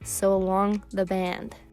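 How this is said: It is said in a harsh, aggressive tone. The speaker calls it wrong. "that sounded very aggressive"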